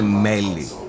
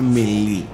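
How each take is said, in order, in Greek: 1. Ο τόνος πέφτει στην πρώτη συλλαβή. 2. Ο τόνος πέφτει στην τελευταία συλλαβή. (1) "μπορώ να το λέω και μέλι. Γιατί είναι σαν μέλι" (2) "Στο χωριό μας έτσι μεγαλώσαμε. Να το λέμε μελί"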